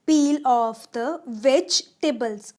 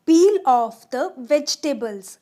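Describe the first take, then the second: No difference in how they are said.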